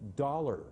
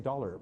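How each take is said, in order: First: It is said in an American accent, long vowel. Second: It is said in a clipped Canadian accent. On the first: "the American sound is, I put my tongue up at forty-five degrees and I go" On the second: "if I just say dollar"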